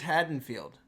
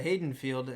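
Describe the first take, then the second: First: The first syllable sounds like 'had'. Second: The first syllable sounds like 'hay'. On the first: The speaker calls it right. "as you guys have both correctly pronounced it this way" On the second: The speaker calls it wrong. "I've been saying it wrong"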